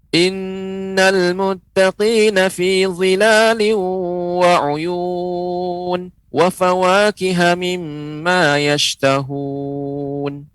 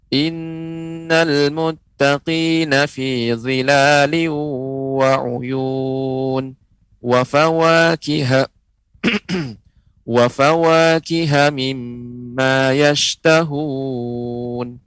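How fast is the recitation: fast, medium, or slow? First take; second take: fast; medium. First: It is recited quickly. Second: It is recited at a moderate, standard speed. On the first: "Bacanya dengan cepat" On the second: "ini bacaan sedang standar"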